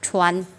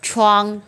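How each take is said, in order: First: The final sound is made with the tongue tip. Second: The final sound is made back in the throat. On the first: The speaker calls it wrong. "đầu lưỡi thì nó sẽ thành chuan chuan chuan" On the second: The speaker calls it right. "Cái này đọc chuang chuang từ cổ họng ra"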